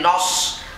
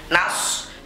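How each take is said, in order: First: The vowel is a rounded 'o'. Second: The vowel is an open 'a'. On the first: The speaker calls it wrong. "Nas jangan menjadi nos" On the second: The speaker calls it right. "tapi harus dijelaskan nun fathahnya"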